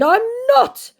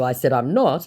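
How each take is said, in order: First: Very high, loud mock protest; exaggerated indignant scammer voice. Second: Said in the usual way. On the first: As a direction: squeal the scammer's denial. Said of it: "said my scammer". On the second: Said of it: "And in response to".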